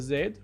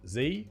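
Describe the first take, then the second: First: The letter is said the British way, 'zed'. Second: The letter is said the American way, 'zee'.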